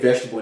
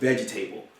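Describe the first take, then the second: First: Some sounds are dropped in a reduced form. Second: Every letter and syllable is sounded out fully. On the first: This is how the speaker says it today. "I'm saying vegetable now" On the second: This is how the speaker was taught at school before. "back then it was vegetable. ... you have to pronounce each thing"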